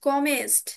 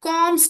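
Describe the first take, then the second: First: An extra vowel is heard between the m and st. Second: No vowel is heard between the m and st. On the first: The speaker calls it wrong. "Not কমেস্ট" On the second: The speaker calls it right. "কমস্ট হবে"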